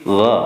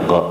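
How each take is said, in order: First: The vowel is said open, without rounded lips. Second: The vowel is said with rounded lips. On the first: The speaker calls it right. "tapi gha" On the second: The speaker calls it wrong. "bukan bulat kita go"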